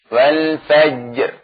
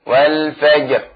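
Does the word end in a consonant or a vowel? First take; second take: consonant; consonant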